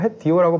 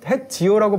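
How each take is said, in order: First: The middle consonant is a tense tt sound. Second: The middle consonant is a j sound. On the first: This is the northwestern dialect form. "햇띠요라고 발음해야 서북 사투리다" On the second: This is the standard pronunciation. "햇지요라고 발음하면 안 되고"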